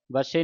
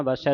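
First: ਵਸੇ ending in a close "ay" sound; wrong vowel ending. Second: ਵਸੈ ending in an open "ai" sound; double-stroke vowel. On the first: Teacher warns readers off this form, ਵਸੇ with narrow final e. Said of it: "ਵਸੇ ਨਹੀਂ ਪੜ੍ਹਨਾ". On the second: Teacher models correct reading, ਵਸੈ with open final ai. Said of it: "ਦਲਾਵਾਂ ਦੇ ਨਾਲ". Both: Shown as a demonstration.

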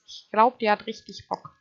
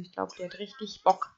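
First: Deutlich lauter, begeistert. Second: Said in the usual way. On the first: Real, not acted. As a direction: ruf es übertrieben begeistert. Übertriebene Wiederholung. (lauter, begeisterter Ausruf)

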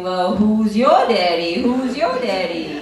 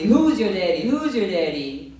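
First: Loud, slow, higher repeat; loud mock question. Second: Mock American guy. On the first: She copies the guy, loud and slow. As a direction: throw the line back at him, hammed up. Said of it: "So I asked him". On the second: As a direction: punch out the pickup line. American guy asking her dad.

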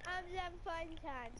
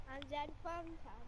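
First: Intro voice. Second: Said in the usual way. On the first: Pretend. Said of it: "I got your intro. Ready?". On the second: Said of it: "I got your intro".

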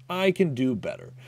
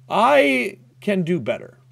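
First: Said in the usual way. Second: Slow, higher, stretched out; deliberate pep talk; slow drawn-out. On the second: Real, not acted. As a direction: drag the words as you regroup.

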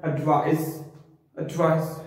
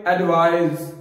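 First: एडवाइस ending in a short, sharp s; correct pronunciation demo. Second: एडवाइस drawn out with a z ending; mispronunciation demo. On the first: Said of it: "इसकी जो correct pronunciation है वो है". (एडवाइस का सही उच्चारण, छोटा, अंत में 'स') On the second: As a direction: stretch एडवाइस into 'ad-vaaiz'. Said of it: "हमने इसको लंबा नहीं करना". (एडवाइस का गलत, लंबा उच्चारण) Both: Shown as a demonstration.

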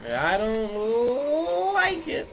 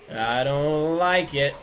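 First: High, very slow whine; high stretched whine. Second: Said in the usual way. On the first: Pretend. Same line repeated rising.

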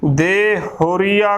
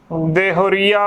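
First: ਦੇਹੁਰੀਆ broken in two, de, pause, huria; split mispronunciation. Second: ਦੇਹੁਰੀਆ as one joined word; correct pronunciation. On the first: Teacher showing how congregations misread it, split ਦੇਹੁਰੀਆ. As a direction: stop after de in ਦੇਹੁਰੀਆ before saying huria. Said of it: "ਪੈਣਾ ਬੋਲ ਦੇਣਗੇ, ਫਿਰ ਹੁਰੀਆ". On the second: Teacher modelling the word, joined correct ਦੇਹੁਰੀਆ. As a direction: run de straight into huria in ਦੇਹੁਰੀਆ. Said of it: "ਉਚਾਰਨ ਕਰਨਾ ਹੈ". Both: Shown as a demonstration.

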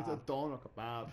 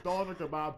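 First: "doner kebab" said slowly, each syllable laid out; careful doner kebab. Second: "Doner kebab" barked louder in a mock Dublin accent; mock Dublin server. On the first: Shown as a demonstration. Correcting a friend's order, slow and plain. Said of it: "good Dublin accent". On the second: Imitating a Dublin fast food worker, mock Irish accent. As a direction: play the Dublin counter guy saying "Doner kebab". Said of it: "they're like".

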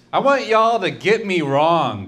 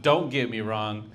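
First: Higher, louder, belted at the crowd; mock crowd-pumping shout. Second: Said in the usual way. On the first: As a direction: belt it like a big punchline.

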